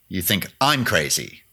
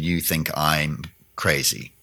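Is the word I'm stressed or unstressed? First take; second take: stressed; unstressed. First: The word I'm is stressed. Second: It is said flat, with no stressed word.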